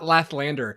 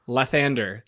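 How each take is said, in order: First: The name has an extra L sound. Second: The name has only one L sound. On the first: The speaker calls it wrong. "I've been mispronouncing his cler- his deity. It's not Lathlander" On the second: The speaker calls it right. "it's Lathander"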